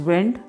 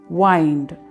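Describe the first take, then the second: First: The vowel is short, as in 'win'. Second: The vowel is long, as in 'wine'. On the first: "one pronunciation is wind" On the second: "the next is wind. That is twist and turn"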